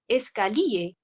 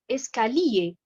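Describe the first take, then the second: The two takes are said the same way.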